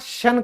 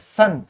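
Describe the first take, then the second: First: It begins with an 'sh' sound. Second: It begins with a plain 's' sound. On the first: The speaker calls it right. "शन कहलाएगा" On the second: The speaker calls it wrong. "कई लोग इसको सन बोल देते हैं ... जो कि बिल्कुल गलत है"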